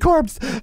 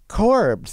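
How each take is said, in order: First: The word is said in a light, cheerful tone. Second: The word is said in a dark, grim tone. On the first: The word is sung without noticing the dead friend. The speaker calls it wrong. "it was oh happy corpse" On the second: The singer is looking at her dead friend. The speaker calls it right. "but no, it's really like corpse"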